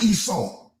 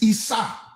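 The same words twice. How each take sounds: First: The name ends with a W sound after the vowel. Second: The name ends on an open vowel, no W. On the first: The speaker calls it wrong. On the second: The speaker calls it right.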